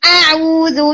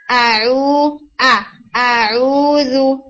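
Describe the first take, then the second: First: Slow आऊज़ु with the hamza squeezed hard; over-pressed hamza. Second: Slow आऊज़ु with an easy, unpressed hamza; relaxed hamza. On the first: Teacher mocking students who press the hamza. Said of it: "बहुत दबा के हमजा को बोलते हैं". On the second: Teacher showing students the relaxed hamza. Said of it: "बल्कि relax". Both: Shown as a demonstration.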